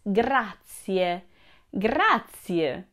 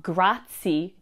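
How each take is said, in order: First: Grazie slowly in three syllables, GRA-tsi-e. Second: Grazie clipped to two syllables, GRAT-sie; wrong two-syllable grazie. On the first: Teacher modelling the right way, slow three-syllable grazie. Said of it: "it's three syllables". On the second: Teacher showing the wrong way, two-syllable grazie. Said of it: "It's not grazie, two syllables". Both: Shown as a demonstration.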